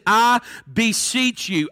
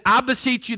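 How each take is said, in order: First: "I beseech you" drawn out word by word; slow emphasis. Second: Said in the usual way. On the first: Shown as a demonstration. Preacher pointing the congregation to that word, slow emphasis. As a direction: stretch "beseech" slowly and deliberately. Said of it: "Look at that word".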